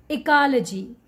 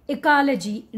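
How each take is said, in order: No difference in how they are said.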